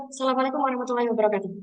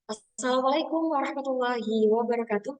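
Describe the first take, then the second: First: Fast, flat rattled-off greeting; hurried greeting without intonation; rushed flat. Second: Rising, measured greeting; careful emcee opening with intonation. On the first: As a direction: rush "Assalamualaikum" with no tune. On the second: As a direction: give the greeting a lifting MC tune. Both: Shown as a demonstration. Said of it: "Kan beda, teman-teman".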